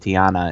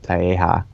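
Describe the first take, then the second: First: The name has an n sound in the middle. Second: The name has an h sound, no n. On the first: The speaker calls it wrong. "I just called it Tiana" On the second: The speaker calls it right. "instead of Taeha"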